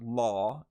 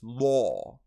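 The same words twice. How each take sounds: First: The vowel has a short American sound. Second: The vowel is drawn out, British-style.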